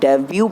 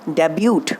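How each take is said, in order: First: The word ends without any t sound. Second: The word ends with an audible t sound. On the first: The speaker calls it right. "टी जो है वो silent रहेगा" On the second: The speaker calls it wrong. "अरे नहीं नहीं बेटा, इसको डेब्यूट नहीं"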